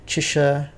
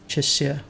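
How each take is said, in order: First: The middle consonant is a sh sound. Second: The middle consonant is an s sound. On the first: The speaker calls it wrong. "it's not the sh sound" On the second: The speaker calls it right. "it's an S"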